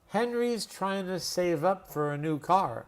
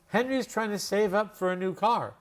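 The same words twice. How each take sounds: First: The sentence is spoken very slowly. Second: The sentence is spoken at a normal speed. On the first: "Now I'll say it really slowly, but the same way" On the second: "exactly like that with my Los Angeles, Hollywood accent"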